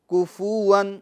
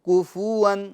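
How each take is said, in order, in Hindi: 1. f के बाद स्वर के साथ बोला जाता है। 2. f के बाद स्वर के साथ बोला जाता है।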